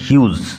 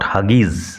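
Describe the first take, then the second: First: The name is said like 'hyooz', one syllable. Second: The name is said like 'Huggies', two syllables. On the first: The speaker calls it right. "উচ্চারণ লক্ষ্য করো, Ted হিউজ" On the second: The speaker calls it wrong. "Not হাগিজ"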